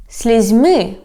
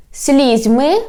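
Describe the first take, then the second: First: "слізьми" stressed on МИ, falling; stress on last syllable. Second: "слізьми" stressed on СЛІЗЬ, rising end; stress on first syllable. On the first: Teacher giving the second variant, "слізьми" stressed on МИ. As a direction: hit the end of "слізьми". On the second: Teacher giving the first variant, "слізьми" stressed on СЛІЗЬ. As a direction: hit the start of "слізьми". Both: Shown as a demonstration. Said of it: "when we change the stress".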